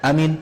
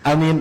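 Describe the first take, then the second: The two takes are said the same way.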